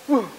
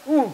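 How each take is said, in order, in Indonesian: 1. Bibir sama sekali tidak dimajukan. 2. Bibir membulat baru dilepas setelah bunyinya. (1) "Itu nggak maju" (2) "Itu sudah diucapkan baru dikembalikan"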